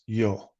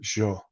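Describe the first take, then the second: First: The word begins with a y sound. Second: The word begins with a j sound. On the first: "when you say I, it's yo, y o" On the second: "she'll pronounce it jo, so her y's are a j"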